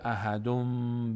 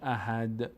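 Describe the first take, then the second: First: The word ends with an added m sound. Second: The word ends on a plain d sound. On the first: The recitation runs straight into the next chapter. "نون تبدیل میشه به میم" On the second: The recitation stops after this word. "در هنگام وقف کردن اصلا این نه واو نه میم هیچ کدومشون اینجا خوانده نمیشه"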